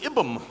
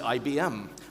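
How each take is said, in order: First: It is pronounced as a single word. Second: Each letter is spoken separately. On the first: The speaker calls it wrong. "we don't say I B M" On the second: The speaker calls it right. "we say I B M"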